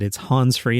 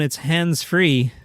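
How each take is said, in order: First: 'Hands' sounds like 'Hans', without the d. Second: 'Hands' is said with its full final consonants. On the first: The speaker calls it wrong. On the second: The speaker calls it right.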